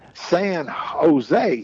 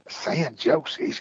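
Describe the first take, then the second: First: Jose begins with an H sound. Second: Jose begins with an English J sound. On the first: The speaker calls it right. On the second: The speaker calls it wrong.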